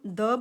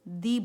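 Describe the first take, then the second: First: The word ends in a short 'uh' vowel. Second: The word ends in a long 'ee' vowel. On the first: "एक हम द बोलते हैं sometimes" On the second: "sometimes हम इसको दी बोलते हैं"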